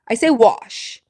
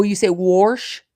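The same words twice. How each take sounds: First: Wash with no r, "wahsh"; plain wash. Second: Wash said slowly as "warsh" with an r. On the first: Answering a viewer, plain wash without r. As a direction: say wash cleanly, no r. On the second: Repeating a viewer's word, wash as warsh. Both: Shown as a demonstration.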